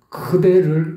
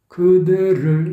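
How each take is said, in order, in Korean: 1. 첫소리는 숨이 섞여 있어서 거센 ㅋ에 가까워요. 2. 첫소리는 깔끔한 예사소리 ㄱ이에요. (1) "이 그대를은 아니거든요" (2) "그대를 이거지"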